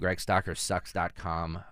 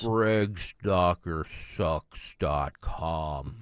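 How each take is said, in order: First: It is said at normal speed. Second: It is said slowly and deliberately.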